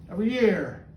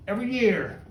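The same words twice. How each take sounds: The two takes are said the same way.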